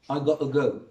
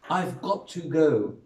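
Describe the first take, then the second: First: Some sounds are merged and dropped. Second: Every sound of the phrase is said fully.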